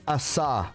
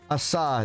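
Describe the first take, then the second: Both takes have the same delivery.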